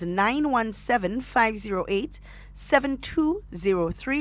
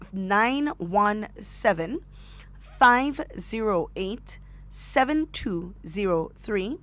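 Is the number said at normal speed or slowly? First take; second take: normal; slowly. First: The number is said at normal speed. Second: The number is said slowly.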